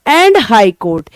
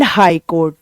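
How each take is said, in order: First: Slow repeat. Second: Said in the usual way. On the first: Shown as a demonstration. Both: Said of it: "यानी कि supreme court".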